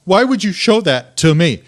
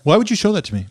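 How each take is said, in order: First: Retold indignant question. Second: Quick, higher-pitched imitation of upset wife; retold upset question. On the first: Wife demanding an explanation from husband, deliberate mock indignation. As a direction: repeat it deliberately, as the appalled wife. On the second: Wife confronting husband over the camping video, quick retold upset question. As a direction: ask it fast and high, mock-upset.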